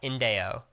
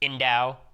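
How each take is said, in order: First: The name is said as Indeo. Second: The name is said as Indao. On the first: This is the name's correct pronunciation. The speaker calls it right. "But Indeo. Got it" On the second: This is the mistaken pronunciation used before. The speaker calls it wrong. "I pronounced it Indao for eighteen months now"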